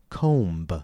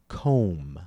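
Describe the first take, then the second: First: The word ends with an audible B release. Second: The word ends on M with no B sound. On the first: The speaker calls it wrong. "Notice that I did not say comb" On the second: The speaker calls it right. "the B is usually silent"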